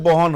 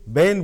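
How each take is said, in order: First: It is said in a Kolkata accent. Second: It is said in a Delhi accent. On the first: "Calcutta जाते बहन हो जाता है" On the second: "Delhi में बहन को बहन बोला जाता है। ... ए का साउंड इफेक्ट होता है"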